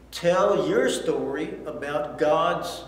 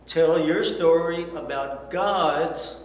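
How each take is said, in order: Both takes have the same delivery.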